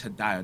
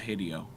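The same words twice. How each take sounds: First: "Hideo" with its middle rhyming with "eye"; Hideo said hih-DYE-oh. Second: "Hideo" with the middle sounding like "ee". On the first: Host settling how the creator's name is read, "Hideo" as hih-DYE-oh. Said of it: "I think it's Hideo, not Hideo". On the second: Host rejecting a reading of the creator's name, "Hideo" as HID-ee-oh. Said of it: "not Hideo". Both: Shown as a demonstration.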